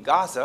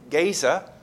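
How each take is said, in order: First: The first vowel is an open 'ah' sound. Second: The first vowel is a long 'ay' sound. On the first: "I hear it pronounced on TV" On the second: "American Standard has the A with a line on it"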